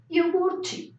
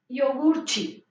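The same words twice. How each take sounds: First: Iogurte with the final te said as chi; Portuguese iogurte. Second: Iogurte said again, final te as chi, falling; Portuguese iogurte. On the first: Teacher showing the class how T plus I sounds, Portuguese ch. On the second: Teacher repeating the word for the class, chi ending. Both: Shown as a demonstration. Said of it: "la T con la I suena ch".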